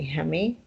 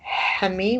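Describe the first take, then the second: First: The first sound is a soft, light H. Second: The first sound is a hard, strong H. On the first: This is how it is said in Dehuk. "In Dehuk, they say Hemi with a soft H" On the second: This is how it is said in Zaho. "In Zaho, they say Hemi with a hard H"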